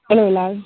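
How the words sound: The greeting sounds natural and convincing.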